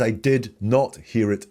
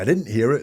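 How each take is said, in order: First: The words 'did not' are said in full. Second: The words 'did not' are contracted to 'didn't'. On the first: "which is more formal" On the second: "He doesn't say"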